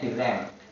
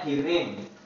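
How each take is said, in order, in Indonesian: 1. Suku kata terakhir memakai vokal 'e'. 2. Suku kata terakhir memakai vokal 'i'. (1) "padahal maksudnya direm" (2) "Kita sering bilang mobilnya direm"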